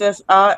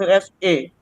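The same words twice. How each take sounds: First: A said as an open "ah"; British A. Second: A said as "ay"; American A. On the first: Student showing examiner the British vowel, A as "ah". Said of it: "in British accent". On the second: Student showing examiner the American vowel, A as "ay". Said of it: "and American accent". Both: Shown as a demonstration.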